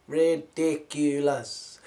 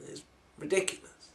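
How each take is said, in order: First: Ridiculous stretched slow with a falling end; slow, scornful Ridiculous; drawn-out ridiculous. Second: Said in the usual way. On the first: Acted. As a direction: drag out Ridiculous in mock disbelief. Repeats the word, drawn out.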